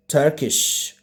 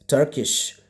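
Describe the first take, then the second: No difference in how they are said.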